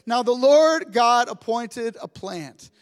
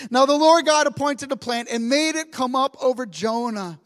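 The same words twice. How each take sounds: First: Slow scripture reading. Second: Said in the usual way. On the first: Shown as a demonstration. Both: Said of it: "it says this".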